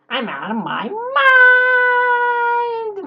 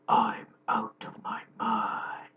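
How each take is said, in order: First: It is said in an amusing, squeaky voice. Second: It is said in a deep, Batman-like voice.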